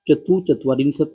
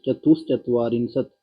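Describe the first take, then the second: First: No sound joins the two parts. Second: An sh sound joins the two parts. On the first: The speaker calls it wrong. "इसने विसर्ग का तो लोप कर दिया" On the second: The speaker calls it right. "इसका फिर सही रूप हो जाएगा"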